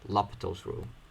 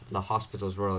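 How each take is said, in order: First: The name sounds like lopital, without an s. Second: The name sounds like the English word hospital. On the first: The speaker calls it right. "it's supposed to be pronounced L'Hopital's rule" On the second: The speaker calls it wrong. "Some people say the hospitals. That's incorrect"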